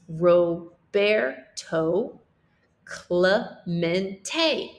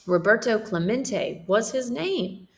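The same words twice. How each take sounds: First: Roberto Clemente said slowly, with the r tapped and Clemente as klay-MEN-tay; Spanish pronunciation. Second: Said in the usual way. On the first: Shown as a demonstration. Teacher models the correct Spanish pronunciation of Roberto Clemente for the class. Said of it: "this is pronounced Roberto". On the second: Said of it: "this is pronounced Roberto Clemente".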